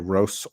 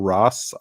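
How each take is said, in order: First: The vowel is a long 'oh' sound. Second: The vowel is a short 'o' sound. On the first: "You can say Rose or Ross" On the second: "You can say Rose or Ross"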